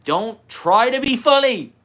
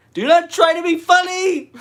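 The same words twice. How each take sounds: First: High, slow preaching guru. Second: "not" split off and hit very high and loud; stress on not. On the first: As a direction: lay it down as the wise guru. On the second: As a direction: preach it, punching "not" hard and high. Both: Pretend. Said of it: "As a guru".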